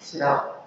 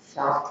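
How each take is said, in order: First: The word begins with sh followed by r. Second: The word begins with a plain sh sound. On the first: "आपल्या तोंडी काय असतं बघा" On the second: "शाप शब्द असेल"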